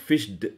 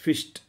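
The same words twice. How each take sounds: First: The ending is not a t sound. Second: The ending is a t sound. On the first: The speaker calls it wrong. "it is not fished" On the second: The speaker calls it right. "it's fished"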